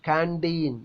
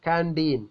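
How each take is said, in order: Both takes have the same delivery.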